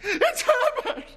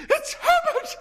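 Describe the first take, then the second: First: Very high, slow, loud wail; drawn-out scream. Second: Very high, loud scream of joy. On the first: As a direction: stretch the name out in a desperate shriek. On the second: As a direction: shriek the name in wild hope. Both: Acted. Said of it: "she screamed".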